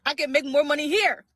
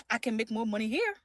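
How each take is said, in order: First: Louder, firmer repeat; emphatic. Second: Said in the usual way. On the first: Shown as a demonstration. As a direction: say it loud and proud. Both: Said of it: "laugh, repeated louder".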